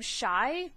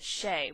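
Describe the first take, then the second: First: The first syllable rhymes with 'sky'. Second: The first syllable rhymes with 'day'. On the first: This is how the speaker instinctively reads it. The speaker calls it wrong. "I always want to say her name Shy" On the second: This is how the author says it. The speaker calls it right. "Brandon actually pronounces it Shay"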